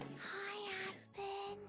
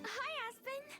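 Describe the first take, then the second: First: It is said quietly. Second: It is said loudly.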